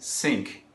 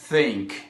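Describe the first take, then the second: First: The word begins with a hissing 's' sound. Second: The word begins with a soft 'th' sound. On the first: It sounds like the word for a sink. "eles falam think" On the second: It means to think. "eles não falam think"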